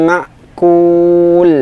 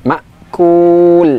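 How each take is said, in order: Both takes have the same delivery.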